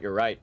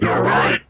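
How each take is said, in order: First: It is said in his normal voice. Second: It is said in a put-on voice.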